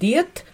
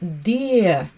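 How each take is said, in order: First: The word ends with a clear t sound. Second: The word ends without any t sound. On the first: "Мы пишем «дет»" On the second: "а читаем «де»"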